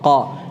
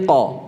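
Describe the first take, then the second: First: The q is followed by a clear vowel sound. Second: The q bounces briefly with no vowel coloring. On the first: The speaker calls it wrong. "ini kalau dibuka rahangnya qa qa. Ini jadi ada pengaruh harakatnya" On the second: The speaker calls it right. "rahang itu tetap eh, tetap di tempat"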